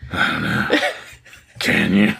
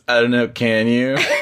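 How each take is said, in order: First: It is said in a put-on sexy voice. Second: It is said in a plain voice.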